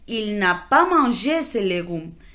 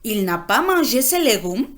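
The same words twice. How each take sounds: First: It is said with a statement intonation. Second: It is said with a question intonation. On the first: It states that he did not eat them. "se convierte en" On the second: It asks why he did not eat them. "solo se agrega el signo y la entonación"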